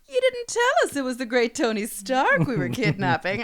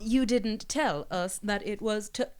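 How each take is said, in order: First: It is said in a lively, theatrical voice. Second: It is said in a flat robotic voice.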